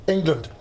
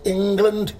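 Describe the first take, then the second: First: Said in the usual way. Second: "England" drawn out as a question; "England" stretched and tentative, pitched a little up; unsure pronunciation. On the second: Acted. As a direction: try out "England" slowly, as if unsure of the word. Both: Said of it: "Is that how you say it?".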